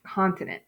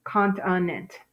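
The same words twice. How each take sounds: First: Said in the usual way. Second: "continent" as CONT-uh-NENT, each syllable clear; careful syllabled "continent"; sounded out. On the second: Shown as a demonstration. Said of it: "I have a short E for nent".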